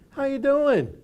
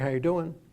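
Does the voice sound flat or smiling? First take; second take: smiling; flat. First: It is said warmly, with a smile. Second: It is said flatly, without a smile.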